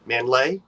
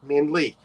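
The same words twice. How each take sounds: First: MANLEY ending in "lay", as a question; alternate pronunciation. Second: MANLEY ending in "lee", as a statement; alternate pronunciation. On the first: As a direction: try "Manley?" as man-LAY, voice rising. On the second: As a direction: settle on "Manley" as MAN-lee. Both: Shown as a demonstration. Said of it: "Either way".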